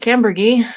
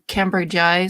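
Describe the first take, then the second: First: It is said shortly, sounding like 'Cam-ber-gee'. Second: It is said fully, sounding like 'Cambridge-eye'. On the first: This is the speaker's own usual pronunciation. "I pronounce it Cambergy" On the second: This is an alternative pronunciation others use. "or Cambridgei. Some people pronounce it both"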